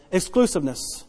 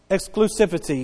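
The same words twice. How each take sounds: First: "exclusiveness" offered as the fix; corrected word. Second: "exclusivity" said as the word he thinks is wrong; first try at the word "exclusivity", later taken back; doubted word. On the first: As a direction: swap in "exclusiveness" as the correction, softly. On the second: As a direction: say "exclusivity" unsure, trailing off softer. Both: Real, not acted. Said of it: "I'm not saying that word correct".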